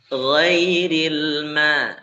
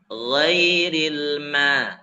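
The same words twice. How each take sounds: No difference in how they are said.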